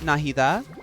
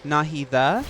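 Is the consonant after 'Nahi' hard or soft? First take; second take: soft; soft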